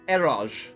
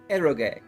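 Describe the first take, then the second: First: It is said the English way, ending softly. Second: It is said the Japanese way, with a final syllable. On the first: This is how the speaker long assumed it was said. The speaker calls it wrong. "all of this time, I've been I've been thinking it's pronounced eroj" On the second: This is how the word is probably really said. The speaker calls it right. "It's a Japanese word, so it's probably eroge"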